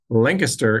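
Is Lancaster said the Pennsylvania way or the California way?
Pennsylvania way. Lancaster is said the local Pennsylvania way.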